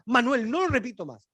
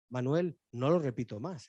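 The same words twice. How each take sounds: First: It is said loudly, at the peak of rising volume. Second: It is said quietly, with the voice dropped low.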